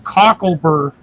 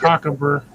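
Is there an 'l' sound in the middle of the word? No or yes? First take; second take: yes; no. First: The middle syllable has an 'l' sound. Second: The middle syllable has no 'l' sound. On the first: The speaker calls it right. "cocklebur, not cockabur" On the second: The speaker calls it wrong. "not cockabur"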